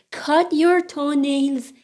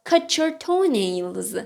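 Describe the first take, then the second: First: Said in the usual way. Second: "cut your" merged into "cutcher"; linked form. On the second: Shown as a demonstration. Teacher offers the alternative for toenails, "cut your" as "cutcher". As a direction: join "cut your" with a ch sound.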